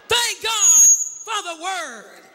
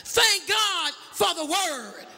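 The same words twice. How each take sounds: First: Loud ringing shout, drawn out slowly; shouted praise. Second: Said in the usual way. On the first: Shown as a demonstration. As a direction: belt it to the whole church. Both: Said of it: "Will you tell somebody else".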